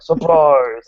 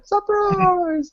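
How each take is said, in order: First: Louder goofy monster call; silly monster voice. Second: Very high squeaky monster voice; sillier monster voice. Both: Retold or imitated. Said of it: "with increasingly silly monster voices like".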